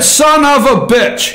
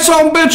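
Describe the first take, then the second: First: The words are said separately and fully. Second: The words are run together into two syllables. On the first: The speaker calls it wrong. "He said three words" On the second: The speaker calls it right. "you just run it all together"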